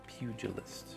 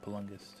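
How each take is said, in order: First: The word has a 'j' sound in the middle. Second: The word has an 'l' and 'n' in the middle. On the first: The speaker calls it right. "I've never never knew that it was pugilist" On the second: The speaker calls it wrong. "that's that's how I've been pronouncing it"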